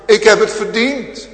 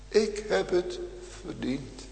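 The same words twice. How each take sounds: First: Louder, higher confession cried out; fervent shouted admission; loud preaching cry. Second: Softly, fading almost to nothing; murmured guilty admission; hushed confession. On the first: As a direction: hurl the guilt from the pulpit. Same confession, now cried out. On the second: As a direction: let the words sink down. Preacher repeats confession, then softly. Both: Acted.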